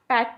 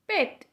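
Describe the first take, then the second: First: The vowel is not a clean 'e' sound. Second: The vowel is a clean 'e' sound. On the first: The speaker calls it wrong. "कई लोग इसको वैट, लट, पैट ऐसे pronounce करते हैं, but ये wrong है" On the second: The speaker calls it right. "इस तरह से इसको प्रोनाउंस करना है हमें"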